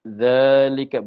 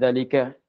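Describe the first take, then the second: First: The first vowel is held long. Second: The first vowel is short. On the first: The speaker calls it right. "maka zal tu ada alif" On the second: The speaker calls it wrong. "Bukan zalika"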